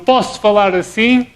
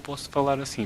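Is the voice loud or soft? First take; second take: loud; soft. First: It is spoken loudly and strongly. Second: It is spoken softly and weakly. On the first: "é forte"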